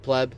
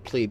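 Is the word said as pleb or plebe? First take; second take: pleb; plebe. First: It is said as the one-syllable word pleb. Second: It is said as plebe, with its intended vowel. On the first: This is how others say it. The speaker calls it wrong. "people still say theory pleb" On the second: This is how the name is meant to be said. The speaker calls it right. "so that you would say plebe"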